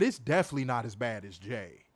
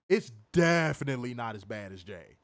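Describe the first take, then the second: First: Said in the usual way. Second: "definitely" stretched out to insist; stress on DEFINITELY. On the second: Real, not acted. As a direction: lean hard on the word "definitely" for emphasis. Repeats remark, leaning on definitely.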